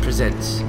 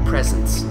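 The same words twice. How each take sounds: First: The stress is on the second syllable. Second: The stress is on the first syllable. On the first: The company is introducing something. "Ubisoft presents" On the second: The company is giving gifts. "depending on how close to Christmas it could possibly be"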